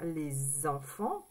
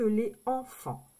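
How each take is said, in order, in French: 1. Un son z lie les à enfants. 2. Aucun son z ne lie les à enfants. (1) "C'est plus joli de dire les enfants" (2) "que les enfants"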